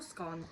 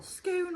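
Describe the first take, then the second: First: "scone" with a short o, rhyming with gone; "scone" with the vowel of hot. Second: High, drawn-out "Scone" with a long vowel; "Scone" with the vowel of go, stretched. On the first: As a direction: say "scone" to rhyme with on. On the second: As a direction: say "Scone" to rhyme with bone, pitched up. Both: Shown as a demonstration. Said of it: "What is the correct pronunciation".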